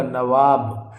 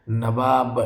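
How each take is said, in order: First: नवाब said as "navaab" with a clear v; correct spelling. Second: नवाब said as "nabab" with a b sound; wrong spelling read out. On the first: Teacher gives students the correct form, नवाब with a clear v. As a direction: read नवाब with a v in the middle. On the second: Teacher shows students the misspelled form, saying नवाब as nabab. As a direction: read नवाब with b in the middle, not v. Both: Shown as a demonstration. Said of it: "नवाब नहीं होगा".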